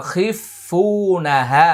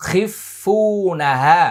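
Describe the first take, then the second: No difference in how they are said.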